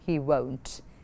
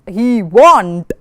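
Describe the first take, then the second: First: The vowel sounds like a long 'oh' sound. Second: The vowel sounds like 'ah', as in want. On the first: The speaker calls it right. "No, he won't" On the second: The speaker calls it wrong. "Not he won't"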